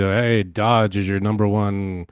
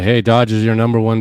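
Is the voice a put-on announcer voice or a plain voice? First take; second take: announcer; plain. First: It is said in a put-on announcer voice. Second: It is said in an ordinary untrained voice. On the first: A skilled voice artist is speaking. "I can do a voice" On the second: Someone without voice talent is speaking. "someone who doesn't have that talent, that voice"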